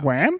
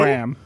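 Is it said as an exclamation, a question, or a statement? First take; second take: question; statement. First: It is said as a puzzled question. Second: It is said as a flat statement.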